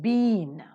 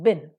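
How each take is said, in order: First: The vowel is full and long. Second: The vowel is short and reduced. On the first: "been with a stronger one" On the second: "been with a weaker one"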